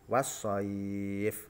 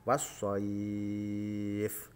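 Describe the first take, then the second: First: The long vowel is held for four beats. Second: The long vowel is held for six beats. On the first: "dua alif contoh" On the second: "panjang yang ketiga yaitu tiga alif atau enam harokat"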